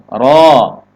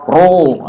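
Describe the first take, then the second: First: "Ro" said full and open; firm, thick "Ro" with an open vowel. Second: "ro" pushed forward into a pursed oo; exaggerated rounded "ro"; over-rounded wrong ro. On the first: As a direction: hit a heavy "Ro" without pursing. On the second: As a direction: purse the lips on a drawn-out "ro". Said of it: "ini goyang mulut kita ke depan". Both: Shown as a demonstration.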